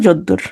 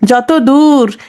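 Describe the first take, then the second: First: A doubled d sound comes before ur. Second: A t sound comes before dur.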